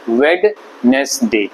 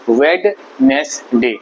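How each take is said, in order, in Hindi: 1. इसे तीन अक्षरों में बोला जाता है। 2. इसे तीन अक्षरों में बोला जाता है।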